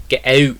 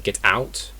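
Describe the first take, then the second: First: "get out" with out's vowel raised towards eh-oo; Scottish ow. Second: Said in the usual way. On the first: Shown as a demonstration. Teacher contrasting with English, Scottish vowel in "get out". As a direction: hit "out" with a Scottish ow. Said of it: "It's very, very distinct". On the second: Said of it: "It's very different to English".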